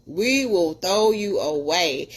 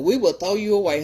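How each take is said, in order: First: Slow emphatic repeat. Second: Said in the usual way. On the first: Real, not acted.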